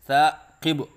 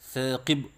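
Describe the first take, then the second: First: It is said with a glottal catch. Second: It is said with the mouth kept closed. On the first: "हमज़ा के साथ नाम लेते हैं" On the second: "मुंह बंद करके नाम लेते हैं"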